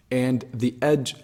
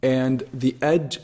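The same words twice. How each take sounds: The two takes are said the same way.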